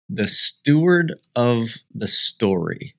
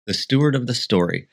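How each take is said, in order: First: The Steward of the Story said slowly, leaning on Steward; slow dramatic title. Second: Said in the usual way. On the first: Shown as a demonstration. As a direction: announce the title grandly. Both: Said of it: "that we are going to call".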